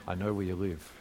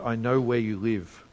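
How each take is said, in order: First: It is said in a Dirty Harry impression. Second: It is said in his ordinary reading voice.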